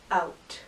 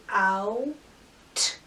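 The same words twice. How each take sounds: First: Said in the usual way. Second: "Out" split into ow, pause, crisp t; sounded out. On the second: Shown as a demonstration. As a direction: separate the two sounds of "Out". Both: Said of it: "every sound you hear".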